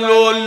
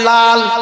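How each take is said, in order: First: The vowel is a rounded 'o' sound. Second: The vowel is an open 'a' sound. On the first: The speaker calls it wrong. "লোল না লোল লুল কিছু না" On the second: The speaker calls it right. "আপনারা সবাই লাল বলেন লাল"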